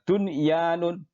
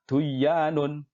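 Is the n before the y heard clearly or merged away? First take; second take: clear; merged. First: The n before the y is pronounced clearly. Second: The n before the y is merged away. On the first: The speaker calls it right. "yang betul adalah dunyanun ... dibaca dengan idhar" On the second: The speaker calls it wrong. "bukan duyanun"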